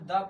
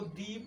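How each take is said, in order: First: The vowel is short and weak, like 'thuh'. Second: The vowel is long, like 'thee'. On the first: The next word starts with a consonant. "इसको हम द पढ़ेंगे" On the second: The next word starts with a vowel. "यहाँ पर जो हम इसको दी पढ़ेंगे"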